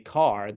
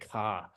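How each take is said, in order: First: It is said in a standard accent. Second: It is said in a Boston accent.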